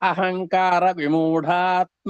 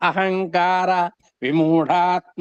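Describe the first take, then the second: First: It is said as one joined word. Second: It is said as two words with a break. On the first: "ఇప్పుడు కలిపితే" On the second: "రెండు పదాలుగా విడదీసుకొని చదువుకుందాం"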